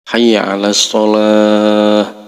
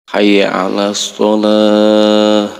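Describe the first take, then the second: Both takes have the same delivery.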